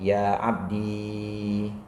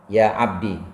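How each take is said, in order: First: The word ends in a long i vowel. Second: The word ends in a short i vowel. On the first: "menetapkan ya mutakalimnya" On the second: "dengan membuang ya mutakalim"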